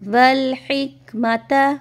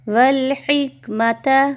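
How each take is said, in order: Both takes have the same delivery.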